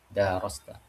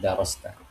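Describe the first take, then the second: First: The vowel after the d is drawn out long. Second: The vowel after the d is kept short. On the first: This is one traditional reading of the verse. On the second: This is the common reading of the verse.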